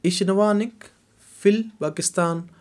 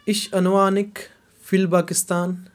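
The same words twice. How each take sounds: The two takes are said the same way.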